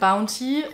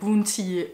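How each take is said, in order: First: The word is pronounced with English sounds. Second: The word is pronounced with French sounds. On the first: "au lieu de dire" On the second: "ils vont dire"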